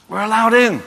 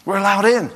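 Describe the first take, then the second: No difference in how they are said.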